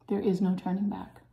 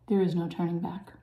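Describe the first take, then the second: No difference in how they are said.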